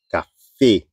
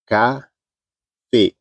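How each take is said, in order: First: Said in the usual way. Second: "Café" slowly split, CA... FÉ; syllable by syllable. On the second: Shown as a demonstration. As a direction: say "Café" in two separate syllables with a long pause.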